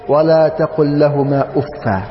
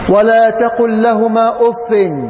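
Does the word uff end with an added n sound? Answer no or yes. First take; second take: no; yes. First: The last word ends on a vowel, no n. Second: The last word ends with an added n sound. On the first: The word is definite. "وقرأ بعدم التنوين" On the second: The word is indefinite. "قرأ بالتنوين"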